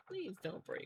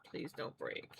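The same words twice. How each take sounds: First: Said in the usual way. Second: Soft unvoiced plea to the yarn; whispered plea. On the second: Real, not acted. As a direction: beg the thread in a whisper not to snap. Begging thin yarn not to snap.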